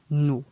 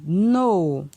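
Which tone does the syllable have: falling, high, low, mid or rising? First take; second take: low; falling. First: The syllable is said on a low tone. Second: The syllable is said on a falling tone. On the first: "Ton bas" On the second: "ton descendant"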